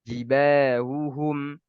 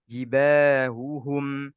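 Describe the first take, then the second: Both takes have the same delivery.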